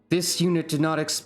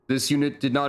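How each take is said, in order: First: It is read in a put-on character voice. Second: It is read in a plain normal voice.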